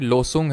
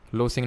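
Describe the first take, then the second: First: The second syllable has a 'u' vowel. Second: The second syllable has an 'i' vowel. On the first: The speaker calls it right. "लोसुंग है" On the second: The speaker calls it wrong. "लोसिंग नहीं"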